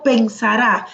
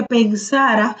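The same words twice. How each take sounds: First: "pensará" with the stress on final RÁ; accented final A. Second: "pensara" with SA stressed and a weak ending; no final accent. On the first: Teacher explains the future form, "pensará" stressed at the end. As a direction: punch the last syllable of "pensará". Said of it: "si yo digo pensará". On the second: Teacher explains the unaccented word, "pensara" stressed on SA. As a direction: lean on the middle syllable of "pensara". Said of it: "si no tuviese el acento". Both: Shown as a demonstration.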